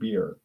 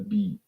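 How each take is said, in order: First: It ends with a clear R sound. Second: It ends without an R sound. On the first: "Has an R at the end" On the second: "In Australia, they call it a beat"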